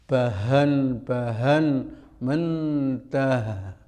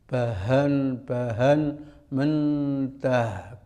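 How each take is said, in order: Both takes have the same delivery.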